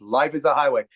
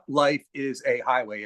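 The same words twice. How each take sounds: First: The words run together as one word. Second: The words are said separately, with breaks.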